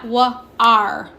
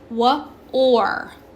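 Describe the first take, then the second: First: The vowel sounds like 'ar'. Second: The vowel sounds like 'or'. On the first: The speaker calls it wrong. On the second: The speaker calls it right. "it's pronounced O R"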